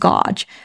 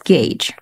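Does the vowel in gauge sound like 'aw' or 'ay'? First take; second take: aw; ay. First: The vowel sounds like 'aw' as in cause. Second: The vowel sounds like 'ay' as in gate. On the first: The speaker calls it wrong. "I've always mispronounced gauge as gauge for the combination A U" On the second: The speaker calls it right. "make sure you pronounce it correctly as gauge"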